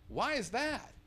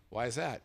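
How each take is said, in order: First: Incredulous repeat pitched high; higher, disbelieving echo of the manager's question; mock echo. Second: Said in the usual way. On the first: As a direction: throw the question back in disbelief. He echoes the question mockingly.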